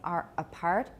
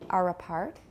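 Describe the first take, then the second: First: The two words are said separately. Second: The two words are linked together smoothly. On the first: "Instead of saying are apart" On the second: "native speakers will usually link are apart"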